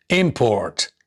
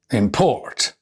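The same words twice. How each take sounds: First: Import as IM-port, first syllable stressed. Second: Import as im-PORT, second syllable stressed. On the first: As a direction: hit the IM in import. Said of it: "nouns and adjectives normally have the stress on their first". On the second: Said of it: "the stress is shifted onto the second syllables". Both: Shown as a demonstration.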